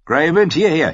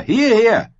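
First: High, loud yell calling the wolf; desperate shout. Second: Even higher, louder cry of the same word; the last, cracking-high yell for the wolf; piercing shout. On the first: Rob shouting his wolf back from the riders. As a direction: call him back with all your breath. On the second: Rob screaming at Greywind a second time, at the top. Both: A narrator's reading. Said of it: "schrie Rob".

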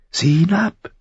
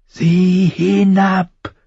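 First: High crow command, rising at the end; high, thin voice. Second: High, very drawn-out command; insistent crow. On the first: Crow tells boy to look down, high and thin. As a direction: give a brief order in a thin bird voice. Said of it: "Die Stimme klang hoch und dünn". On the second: Crow repeats order to frightened boy, insistent. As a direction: stretch the order out, high and unyielding. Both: A narrator's reading.

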